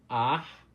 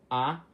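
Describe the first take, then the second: First: The vowel ends with a breathy sigh. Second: The vowel ends cleanly without a sigh. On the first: "é uma vogal com som de um suspiro no final" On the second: "as vogais normais, que não são aspiradas"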